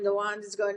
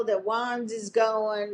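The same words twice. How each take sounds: First: Said in the usual way. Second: Slow ominous. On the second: Retold or imitated.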